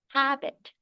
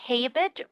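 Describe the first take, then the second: First: The first vowel sounds like an open ah. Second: The first vowel sounds like the letter a. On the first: The speaker calls it right. "not pronouncing a like an a, but an ah" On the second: The speaker calls it wrong. "We don't pronounce that as habit"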